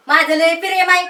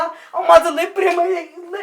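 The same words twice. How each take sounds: First: Scornful parroting of a lover; mocking echo. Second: Slow, loud, higher-pitched plea; pleading declaration. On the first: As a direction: throw the declaration back in mockery. Aunt mockingly echoes his declaration. (टोमणा मारत नक्कल) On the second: Acted. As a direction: profess love at full voice, drawn out. Suitor declares love to the aunt. (कळकळीने, मोठ्याने प्रेमाची कबुली)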